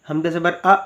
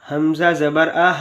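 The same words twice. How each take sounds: First: It is read with an abrupt, jerky cut-off. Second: It is read smoothly, neither cut short nor lengthened. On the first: The speaker calls it wrong. "अगर झटका देकर पढ़ेंगे" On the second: The speaker calls it right. "इसको पढ़ने का सही तरीका तो ये है"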